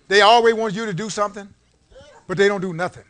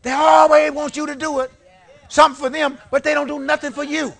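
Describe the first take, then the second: First: Said in the usual way. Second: Loud and higher, hammering ALWAYS; full-voiced preacher's outburst; preaching shout. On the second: Real, not acted. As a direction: call it out to the whole church. Repeats the line at full force.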